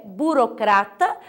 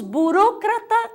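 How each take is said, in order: First: Burocrata said bu-ro-CRA-ta; Portuguese stress. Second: Burocrata said slowly, bu-RÓ-cra-ta; Spanish stress. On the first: Teacher giving the Portuguese form, burocrata stressed on CRA. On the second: Teacher listing Spanish words, burocrata stressed on RO. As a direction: lift RO in burocrata. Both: Shown as a demonstration. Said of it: "em português é burocrata".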